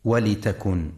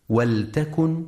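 First: ولتكن with kasra on the lam, walitakun; wrong reading. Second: ولتكن with silent lam, waltakun; correct reading. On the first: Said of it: "فلا يقرأ". (ولتكن بكسر اللام خطأ) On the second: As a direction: say ولتكن with no vowel after the l. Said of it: "لسكون اللام وعدم كسرها". (ولتكن بسكون اللام) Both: Shown as a demonstration.

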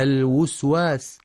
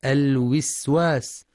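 First: الوسواس with u on the first waw; wrong damma. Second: الوسواس with i on the first waw; wrong kasra. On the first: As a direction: demo the mistake "الوسواس" as alwuswas. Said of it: "أو ضمها". (ضم الواو خطأ) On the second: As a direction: demo the mistake "الوسواس" as alwiswas. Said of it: "بكسر الواو الأولى". (كسر الواو خطأ) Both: Shown as a demonstration.

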